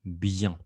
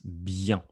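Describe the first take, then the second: The two takes are said the same way.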